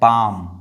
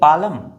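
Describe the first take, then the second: First: The L sound is left out. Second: The L sound is pronounced. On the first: The speaker calls it right. "एल जो है वो क्या है, silent है" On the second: The speaker calls it wrong. "पालम नहीं"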